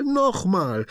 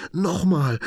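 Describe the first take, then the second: First: Much higher, falling final plea; high joyful cry; excited shout. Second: Much higher, louder begging cry; high eager plea; excited shout. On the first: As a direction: land the last one happily. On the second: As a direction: demand more with glee. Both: A narrator's reading. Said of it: "ruft er begeistert".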